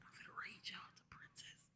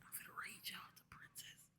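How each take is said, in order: First: It is whispered. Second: The same.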